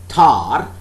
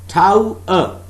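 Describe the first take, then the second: First: The word is smoothed into one syllable. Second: The word is said as two syllables. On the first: This is how it is commonly spoken. "It is spoken as tar" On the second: This is the dictionary pronunciation. "in the dictionary, It is written tau-er"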